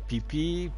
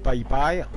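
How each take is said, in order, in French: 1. Chaque syllabe a une voyelle 'ee'. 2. Chaque syllabe a une voyelle 'eye'.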